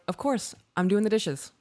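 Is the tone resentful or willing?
willing. It sounds warm and willing. The speaker is glad to take care of it. "That's, I got you"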